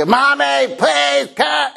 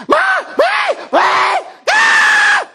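First: High shouted call for mommy; child calling out. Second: Very high, very slow, loud stretched wail of mommy please come; drawn-out wail. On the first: Pastor imitating his son yelling for mom, high shout. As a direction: call out like a five-year-old needing help. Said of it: "and he". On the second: Pastor imitating his son's escalating bathroom wail, very high and slow. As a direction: wail it out like a desperate little boy. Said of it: "then he goes into this". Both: Retold or imitated.

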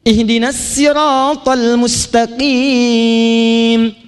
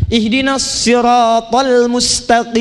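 First: Siratal said with light plain S, very slow chant; slow chanted recitation, sin in siratal. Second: Siratal said with heavy emphatic S, slow; slow recitation, shad in siratal. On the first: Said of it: "yang Qalun bilang pakai sin". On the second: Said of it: "yang Hafiz bilang pakai shad". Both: Shown as a demonstration.

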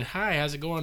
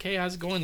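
First: Said in the usual way. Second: Put-on Texas accent. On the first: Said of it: "I remember going". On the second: Retelling a North Texan's phone greeting, mock Texas accent. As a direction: imitate a movie-style Texan greeting. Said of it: "the kind of stereotypical Texas accent".

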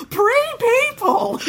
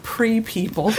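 First: Very high, slow, laughing shriek of "Pre-people!"; mock delighted shriek. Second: Said in the usual way. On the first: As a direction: stretch "Pre-people!" into a gleeful squeal. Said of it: "He goes". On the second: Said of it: "make this noise".

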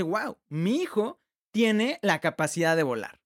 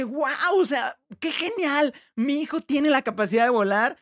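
First: Astonished father. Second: Amazed father. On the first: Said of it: "se asombra y dice". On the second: Father seeing his son fly, delighted and amazed. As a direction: let the dad gush in delight at his son. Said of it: "el papá dice". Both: Retold or imitated.

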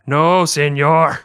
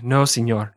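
First: "No, señor" stretched slow and a bit louder; drawn-out emphatic no señor. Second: Said in the usual way. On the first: Shown as a demonstration. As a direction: drag out "No, señor" with weight. Repeating phrase two ways.

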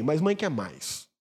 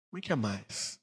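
First: Slow, weighty, stress on mãe; slow emphasis. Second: Much softer and lower, almost to itself; hushed echo. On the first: Pastor stresses mothers want more, slow and weighty. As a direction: draw each word out deliberately. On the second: Pastor quietly repeats that mothers want more, hushed. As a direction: breathe it out as an aside. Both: Shown as a demonstration.

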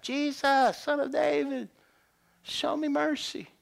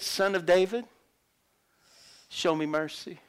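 First: High, pleading call; crying out. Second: Said in the usual way. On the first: Acted. Blind beggar begging Jesus for mercy, crying out. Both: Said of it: "That's what he cried out".

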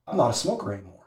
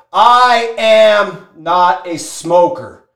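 First: Low, soft statement; quiet acceptance. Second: Slow, loud "I am not a smoker"; emphatic declaration. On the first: Smoker quenched after the ordeal, quiet acceptance. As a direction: say it subdued, under your breath. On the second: Smoker hammered to breaking point, slow emphatic declaration. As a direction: draw out "I am" as a forceful vow. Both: Retold or imitated.

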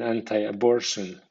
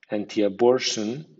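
First: Anti-abortion with anti ending in an eye sound; anti as AN-tai. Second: Anti-abortion with anti ending in an ee sound; anti as AN-tee. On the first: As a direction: say anti-abortion as an-tie-a-BOR-tion. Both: Shown as a demonstration. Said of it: "suena anti o anti".

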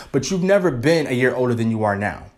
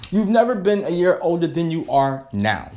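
First: Said in the usual way. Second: "never" leaned on in a proud repeat; stress on never. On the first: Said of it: "there you go". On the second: Shown as a demonstration. Vlogger repeating her quote for viewers, "never" stressed. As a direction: say "never" like a motto, slightly higher.

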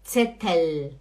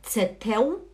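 First: Zettel lower, ending on a clear L; tongue tip up closing Zettel; correct final L. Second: Zettel as "tse-teu", rising; wrong final L. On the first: Teacher finishing the correct list, clear L. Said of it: "é Gabel". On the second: Teacher listing errors to avoid, L as U. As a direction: let the L of Zettel become U. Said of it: "não é". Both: Shown as a demonstration.

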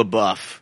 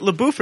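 First: "LaBeouf" with a short vowel, la-BUFF; alternative pronunciation. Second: "LaBeouf" with a long oo, la-BOOF; first pronunciation option. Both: Shown as a demonstration. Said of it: "Is it LaBeouf or LaBeouf".

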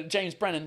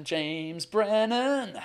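First: Said in the usual way. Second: Very slow, stretched-out name; drawn-out name call. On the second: Real, not acted. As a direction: draw each word right out, holding the last syllable. Calling up the next guest, stretching it.

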